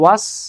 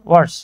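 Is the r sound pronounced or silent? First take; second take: silent; pronounced. First: The r sound is dropped after the vowel. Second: The r sound is pronounced after the vowel.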